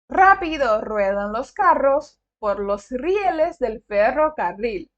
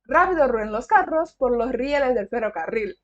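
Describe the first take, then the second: First: The sentence is spoken slowly and carefully. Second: The sentence is spoken quickly. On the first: "Falei muito devagar" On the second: "Agora eu vou tentar falar mais rápido"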